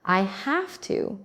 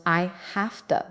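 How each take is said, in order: First: Slow "I have to" with a full "to"; careful, drawn-out "I have to"; full form. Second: "have to" said as hafta; casual "I hafta"; reduced form. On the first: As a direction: say "to" as too. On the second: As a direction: weaken "to" to a quick ta. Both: Shown as a demonstration.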